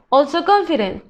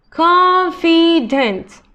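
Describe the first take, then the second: First: Said in the usual way. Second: Confident drawn out slowly, each syllable clear; slow modelling voice. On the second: Shown as a demonstration. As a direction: sound out confident for students. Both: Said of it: "teacher models word then slows".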